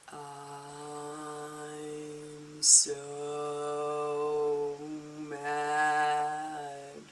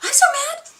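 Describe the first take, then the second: First: It is said slowly. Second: It is said fast.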